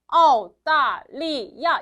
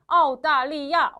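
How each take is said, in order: First: The syllables are said separately with breaks. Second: The syllables are joined into one word.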